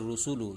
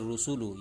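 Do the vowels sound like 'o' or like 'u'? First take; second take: u; u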